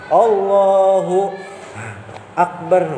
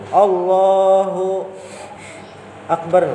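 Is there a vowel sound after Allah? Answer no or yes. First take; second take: yes; yes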